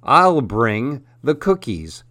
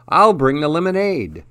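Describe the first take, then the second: First: Lightly voiced, slow bear; a hint of a slow-talking bear; bear character. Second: Lightly voiced chipmunk, pitched up; a hint of a high little chipmunk; chipmunk character. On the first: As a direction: take your time, like a gently played bear. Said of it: "said Bruce the Bear". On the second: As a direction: offer it as a lightly played, higher-pitched chipmunk. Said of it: "said Charles the Chipmunk". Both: A narrator's reading.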